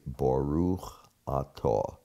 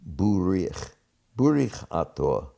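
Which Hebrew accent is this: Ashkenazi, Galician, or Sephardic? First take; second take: Ashkenazi; Galician. First: It is said in a standard Ashkenazi Hebrew accent. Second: It is said in a regional accent with shifted vowels. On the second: "it is a particular accent ... the A became U, and the U became I"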